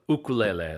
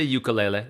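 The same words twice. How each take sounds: First: It uses the native Hawaiian pronunciation. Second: It uses the common mainstream English pronunciation.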